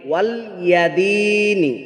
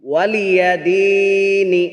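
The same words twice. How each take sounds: First: The y sound is closed off without a vowel. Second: The y sound is followed by a vowel. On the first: Guardian of the religion. The speaker calls it wrong. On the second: My religion is for me. The speaker calls it right.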